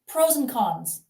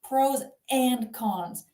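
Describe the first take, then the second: First: The word 'and' is reduced and run together. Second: The word 'and' is said fully and separately. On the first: "when we're speaking quickly is simply mm" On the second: "You don't have to say"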